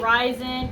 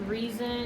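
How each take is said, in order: First: The first vowel sounds like 'rye'. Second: The first vowel sounds like 'ree'. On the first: This is how the speaker says it. "I say Ryzen" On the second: This is the official pronunciation. "but it's pronounced reason"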